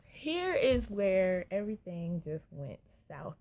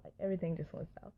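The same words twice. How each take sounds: First: Slow, weighty, stress on here; slow dramatic. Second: Fast, a little softer, tossed-off repeat; quick recap. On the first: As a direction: draw out "here is where everything just went south" like a big reveal. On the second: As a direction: rattle off "everything just went south" quickly. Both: Real, not acted.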